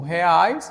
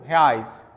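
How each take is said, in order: First: The first vowels are split as separate syllables. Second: The first vowels glide together into one syllable. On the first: "assim como"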